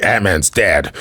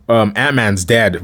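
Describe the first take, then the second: First: Serious. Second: Said in the usual way. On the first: Retold or imitated. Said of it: "he gets all serious and stuff".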